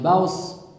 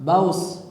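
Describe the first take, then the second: The two takes are said the same way.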